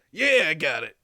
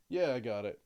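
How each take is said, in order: First: Loud, put-on character voice; big, loud acknowledgement in character; changed character voice. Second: Lower, restrained character reply; low-key in-character answer; toned-down character voice. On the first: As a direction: belt it out in a new character voice. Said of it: "your voice really changed". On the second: Acted. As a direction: acknowledge it in a lower voice. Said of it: "That's better".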